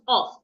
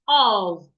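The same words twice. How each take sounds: First: The word ends with an f sound. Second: The word ends with a v sound. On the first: The speaker calls it wrong. "and not of" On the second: The speaker calls it right. "it is pronounced of"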